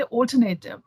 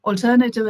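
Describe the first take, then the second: First: "alternative" with a full "nay", "ol-ter-NAY-tiv"; Indian pronunciation. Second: "alternative" with a weak "nuh", "ol-TER-nə-tiv"; correct pronunciation. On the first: A speaker showing how "alternative" is said in India. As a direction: say "alternative" with a long ay before tiv. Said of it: "We say". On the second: A speaker showing the correct English "alternative". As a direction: say "alternative" with a reduced uh before tiv. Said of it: "is the correct pronunciation". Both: Shown as a demonstration.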